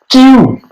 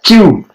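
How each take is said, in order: First: "Q" with the ई pushed, said high; stress on the vowel. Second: "Q" repeated with ई stressed; stress on the vowel. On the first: ("Q" में ई पर ज़ोर) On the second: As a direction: land on the ई in "Q". ("Q" ई पर ज़ोर के साथ) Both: Shown as a demonstration. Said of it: "ई पे थोड़ा जोर आ रहा है".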